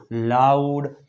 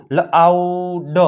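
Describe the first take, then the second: First: Said in the usual way. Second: લાઉડ drawn out in parts, લ-આઉ-ડ; teacher slowly sounding out લાઉડ; sounded out. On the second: Shown as a demonstration. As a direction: stretch લાઉડ slowly, separating the final ડ. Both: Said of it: "તેનો ઉચ્ચાર આવ થાય છે".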